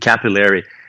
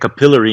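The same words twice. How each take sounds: First: It is said with an American pronunciation. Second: It is said with a British pronunciation. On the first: "em americano" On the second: "em inglês britânico"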